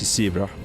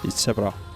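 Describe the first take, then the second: First: It is said with an English pronunciation. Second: It is said with an Estonian pronunciation. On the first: "In English, it's zebra" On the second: "For us, it's zebra"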